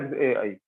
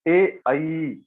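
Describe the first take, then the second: First: It is said weakly, with little breath. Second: It is said with lots of breath force. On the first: The speaker calls it wrong. "it's not like" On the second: The speaker calls it right. "Lots of prana you have to put"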